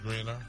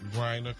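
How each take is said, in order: First: The first vowel sounds like 'ee'. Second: The first vowel sounds like 'eye'. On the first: "Irish type pronunciation where it's Greener" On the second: "The E makes it seem like spine"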